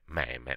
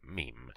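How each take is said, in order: First: The word is pronounced the Italian way. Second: The word is pronounced the English way. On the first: The speaker calls it wrong. "come diciamo quasi tutti in italiano" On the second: The speaker calls it right. "la pronuncia corretta è"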